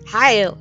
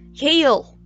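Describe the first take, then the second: First: The name is said with a German accent. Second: The name is said with an English accent. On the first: "say it with a German accent" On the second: "Oh god, no"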